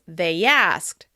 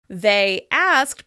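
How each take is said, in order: First: A y sound links the two words. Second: The two words are said separately.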